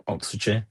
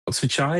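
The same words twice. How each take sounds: First: Oxfordshire with a short "shuh" ending, no final r; reduced shire ending. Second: Oxfordshire with the ending opened out to "shy-uh"; full shire ending. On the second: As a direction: say the end of Oxfordshire like "shire", no hard r. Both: Shown as a demonstration. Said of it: "You can say Oxfordshire".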